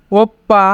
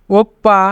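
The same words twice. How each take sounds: The two takes are said the same way.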